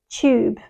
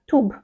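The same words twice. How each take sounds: First: The vowel is long and British-sounding. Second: The vowel is short and Americanized. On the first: The speaker calls it right. "but it's tube" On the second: The speaker calls it wrong. "say it shorter"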